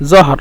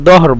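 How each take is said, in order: First: The first sound is a 'z'-like sound. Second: The first sound is a 'd' sound.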